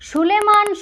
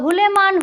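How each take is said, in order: First: The word begins with an s sound. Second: The word begins with an h sound. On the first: "স উচ্চারণ" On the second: "স এর বদলে হ উচ্চারণ করত"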